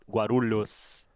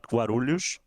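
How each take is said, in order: First: It is said with the local Guarulhos accent. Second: It is said with another region's accent. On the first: "a person from Guarulhos saying" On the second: "it would be not Guarulhos"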